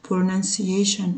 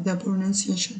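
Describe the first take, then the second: First: Slow, clear pronunciation, every syllable drawn out; teacher modelling pronunciation slowly; careful pronunciation. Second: Pronunciation whispered, the nun clear as pro-NUN-ciation; teacher whispers pronunciation with a clear n. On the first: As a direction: spell out pronunciation by sound, slowly. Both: Shown as a demonstration. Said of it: "عايزة النون هنا".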